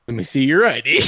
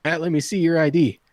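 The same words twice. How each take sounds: First: Imitated smart-aleck comeback with a laugh in it; mock-challenge, punched harder; mocking retort. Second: Lightly voiced, matter-of-fact demand; a hint of a bartender carding someone; bartender checking ID. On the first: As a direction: throw the demand back, cocky. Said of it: "I went". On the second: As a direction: ask for ID, mildly firm. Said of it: "The bartender goes".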